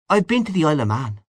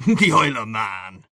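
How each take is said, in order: First: Quick, higher-pitched meek reply; small, hurried answer; timid admission. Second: Amused, mocking echo; lightly scoffing Irish echo; laughing scorn. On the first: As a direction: offer it modestly and fast. Timid friend admits his one trip. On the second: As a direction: repeat it as a laughable idea. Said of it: "Ignatius Gallagher laughed". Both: A narrator's reading.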